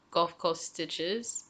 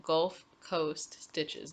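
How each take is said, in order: First: Gulf Coast Stitches with an odd lift at the end; "Gulf Coast Stitches" in an unsure, rising tune; odd intonation. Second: Gulf Coast Stitches, very slow, word by word; "Gulf... Coast... Stitches", carefully spaced out; corrected delivery. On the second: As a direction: restate "Gulf Coast Stitches" deliberately, without the rising end. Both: Real, not acted. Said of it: "why I said it like that".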